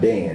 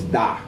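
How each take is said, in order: First: The name ends with an n sound. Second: The name ends on the vowel, no n. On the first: This is the English form of the name. The speaker calls it wrong. "it's not Dan, that's English" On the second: This is the original Hebrew form of the name. The speaker calls it right. "It's Da"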